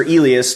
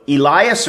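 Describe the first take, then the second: First: "Elias" with "lee" in the middle, not "lie"; pronunciation variant. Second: "Elias" with a long "lie" in the middle, stressed; pronunciation variant. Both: Shown as a demonstration. Offers two readings of a name.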